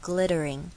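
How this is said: The middle T is flapped, like a D. "这是美式发音"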